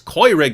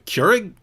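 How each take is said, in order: First: The first vowel is a German-style 'oy' sound. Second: The first vowel is a plain English 'er' sound. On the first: "Don't you know what the sound that makes in German" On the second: "you mean a, a Keurig?"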